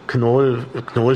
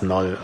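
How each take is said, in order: First: The initial K is clearly pronounced. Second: The initial K is silent. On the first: The name is said the German way. The speaker calls it right. "Knoll finde ich einfach schöner" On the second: The name is said the English way. The speaker calls it wrong. "als Knoll"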